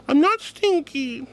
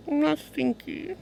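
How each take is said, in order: First: High, drawn-out indignant denial; insistent mock protest. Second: High, drawn-out small protest; mock-hurt protest. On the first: Streamer denying being stinky to chat, insistent mock protest. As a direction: stretch it out high, with more force. Protesting again, more forcefully. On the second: Streamer answering a chatter's stinky accusation, softer mock-hurt denial. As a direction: whine it softly, stretched out.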